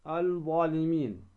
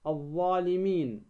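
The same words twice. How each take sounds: First: الظالمين with an audible L before the DH; article's L kept separate in الظالمين; lam wrongly sounded. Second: الظالمين with a doubled DH and no L; article's L merged into the DH of الظالمين; lam assimilated. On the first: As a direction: say الظالمين as al-dhalimin. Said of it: "ولا تقل ماذا إيش؟". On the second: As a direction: say الظالمين as adh-dhalimin. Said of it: "اللام الشمسية ندغمها". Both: Shown as a demonstration.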